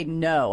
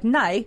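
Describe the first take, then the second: First: Said in the usual way. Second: "Nay", the vowel of no bent towards "nay"; exaggerated Australian "Nay" for no; Australian-style no. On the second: Shown as a demonstration. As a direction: mimic an Aussie no as "Nay". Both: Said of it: "how you guys say no".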